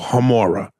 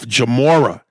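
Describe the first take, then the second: First: The surname begins with an H sound. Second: The surname begins with a J sound. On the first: The speaker calls it right. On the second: The speaker calls it wrong.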